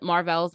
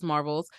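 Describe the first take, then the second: First: "Marvels" said mar-VELS, full E in the ending; weight the end of "Marvels": mar-VELS; stress on second syllable. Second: Said in the usual way. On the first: Shown as a demonstration. Host offering either way to call it, "Marvels" as mar-VELS. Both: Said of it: "however you wanna call it".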